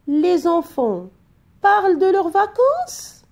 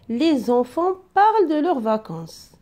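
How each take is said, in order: First: It is said with question intonation. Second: It is said with statement intonation.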